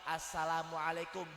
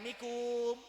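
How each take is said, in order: First: The greeting is said in full, every syllable. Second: The greeting is clipped to its last syllables. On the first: The greeting is given properly and clearly. The speaker calls it right. "atau minimal assalamualaikum biar jelas" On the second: The greeting is being treated as a joke. The speaker calls it wrong. "Dijadiin mainan. Tempo lagi ada mikum"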